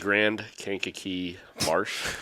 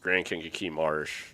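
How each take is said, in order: First: The phrase is said more slowly. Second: The phrase is said at a normal speed.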